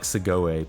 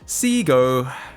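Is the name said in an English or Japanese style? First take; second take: Japanese; English. First: The name is said with Japanese-style vowels. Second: The name is said with English-style vowels. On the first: The speaker calls it wrong. "I'll default to like a Japanese pronunciation" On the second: The speaker calls it right. "I say Seago. That's correct"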